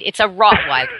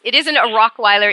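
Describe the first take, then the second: First: "Rottweiler" said right, with a clear T T; correct Rottweiler. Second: "Rockweiler" with a K sound in place of the TT; mock wrong name. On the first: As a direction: say "Rottweiler" with a crisp double T. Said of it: "R O T T". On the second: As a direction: say "Rockweiler" as the silly mistake. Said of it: "It doesn't eat rocks". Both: Shown as a demonstration.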